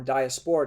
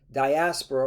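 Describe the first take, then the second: First: Diaspora ending in a full SPORE sound; alternative pronunciation. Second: Diaspora stressed on AS, dy-ASS-pruh; first pronunciation variant. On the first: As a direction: say diaspora as dee-uh-SPOR-uh. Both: Shown as a demonstration. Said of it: "depending on how you wanna pronounce it".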